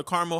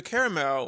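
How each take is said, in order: First: "caramel" said as CAR-mul; two-syllable caramel. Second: "caramel" said as CARE-uh-mel; three-syllable caramel. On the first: Vlogger offers another way to say "caramel", CAR-mul. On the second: Vlogger offers one way to say "caramel", CARE-uh-mel. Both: Shown as a demonstration. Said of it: "however you pronounce it".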